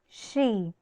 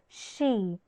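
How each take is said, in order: The two takes are said the same way.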